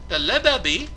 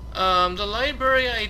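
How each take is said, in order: First: The syllables are slurred together into 'lebebi'. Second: Every syllable of the word is clearly enunciated. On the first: The speaker calls it wrong. "I was saying Lebebi" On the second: The speaker calls it right. "I had to enunciate the word"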